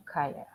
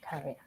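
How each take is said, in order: First: Career said with a French accent, like "ka-yeur"; French accent slipping into career. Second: Career said carefully with a clear English r; corrected career. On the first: Real, not acted. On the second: Shown as a demonstration. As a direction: fix the word Career with a proper r. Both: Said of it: "Sorry, French accent sometimes gets me".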